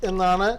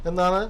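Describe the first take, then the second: No difference in how they are said.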